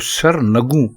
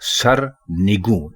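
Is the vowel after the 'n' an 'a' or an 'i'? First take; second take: a; i. First: The vowel after the n is 'a'. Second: The vowel after the n is 'i'. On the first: The speaker calls it wrong. "सर नगू गलत है" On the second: The speaker calls it right. "दुरुस्त लफ्ज है सर निगू"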